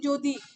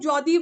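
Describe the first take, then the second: First: The first vowel is changed to a closer 'o'. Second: The first vowel is the unchanged open 'aw' sound. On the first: The speaker calls it right. "আমরা বলি" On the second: The speaker calls it wrong. "আমরা কিন্তু কেউ যদি বলি না"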